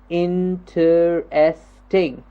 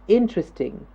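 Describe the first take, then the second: First: The word is split into separate syllables. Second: The word is said as one smooth piece. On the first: The speaker calls it wrong. "we can break the word up into smaller bits" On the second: The speaker calls it right. "We say interesting"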